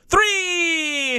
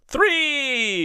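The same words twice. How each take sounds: First: It is said with strong excitement. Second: It is said with little excitement.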